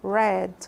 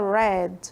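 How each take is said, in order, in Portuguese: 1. A palavra soa como a cor 'red'. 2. A palavra soa como a cor 'red'.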